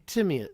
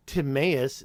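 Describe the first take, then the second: First: "Timaeus" stressed on TIM, cut off at the end; preferred pronunciation. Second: "Timaeus" stressed on a long middle AY; wrong pronunciation. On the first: Streamer correcting viewers then breaking off, "Timaeus" as TIM-ee-us. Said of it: "say Timaeus". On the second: Streamer telling viewers what not to say, "Timaeus" as tim-AY-us. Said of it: "Don't say". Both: Shown as a demonstration.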